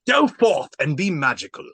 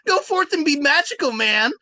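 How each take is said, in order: First: It is said in a Shakespearean voice. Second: It is said in Shaggy's voice.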